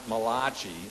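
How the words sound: The name is said in an Italian-sounding style. The speaker calls it wrong. "it's not Malachi, the Italian prophet"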